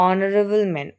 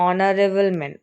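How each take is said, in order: Both takes have the same delivery.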